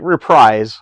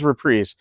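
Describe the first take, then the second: First: The word is said the way it looks written. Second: The word is said differently from its spelling. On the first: The speaker calls it wrong. "It looks like reprise" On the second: The speaker calls it right. "but it is reprise"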